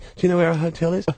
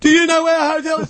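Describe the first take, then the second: First: The question is asked at normal volume. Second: The question is asked much more loudly.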